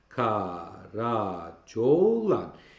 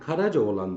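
First: The name is said with four syllables. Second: The name is said with five syllables. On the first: "Bunu 4 heceye çekmek isterse Karacaoğlan der" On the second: "Şair Karacaoğlan derse 1, 2, 3, 4, 5 hece"

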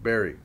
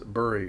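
First: It sounds the same as the word berry. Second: Its vowel sounds different from the word berry. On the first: This is the commonly accepted pronunciation. "the common accepted pronunciation of bury" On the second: This is the less common regional pronunciation. "just as bury is not the common accepted pronunciation"

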